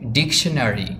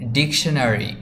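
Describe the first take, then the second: No difference in how they are said.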